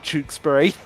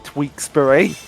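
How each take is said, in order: First: The first syllable sounds like 'tewks'. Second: The first syllable sounds like 'tweaks'. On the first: The speaker calls it right. "it's actually Tewkesbury" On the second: The speaker calls it wrong. "he calls it Tweaksbury"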